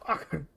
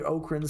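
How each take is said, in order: First: The name sounds like a sneeze or cough. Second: The first syllable sounds like the word oak. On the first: The name sounds weak. The speaker calls it wrong. "almost sounds like a sneeze or a cough" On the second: The name sounds strong. The speaker calls it right. "sounds better. You know, it sounds strong, like an oak tree"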